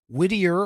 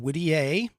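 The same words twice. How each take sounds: First: It is said in a plain English way. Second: It is said with a French accent.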